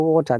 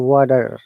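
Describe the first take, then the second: First: The T is a strong, crisp T sound. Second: The T is a soft flap like D. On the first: This is the British pronunciation. "They don't say water" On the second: This is the American pronunciation. "they pronounce T as a flap T or D, like water"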